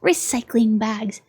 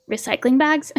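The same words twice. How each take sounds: First: "Recycling bags" said slowly with a falling end; flat statement. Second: "Recycling bags?" with a rising end, as a question; puzzled question. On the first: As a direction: read "Recycling bags" as a plain slow statement, tune dropping. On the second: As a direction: ask "Recycling bags?" with the tune lifting on bags. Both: Shown as a demonstration.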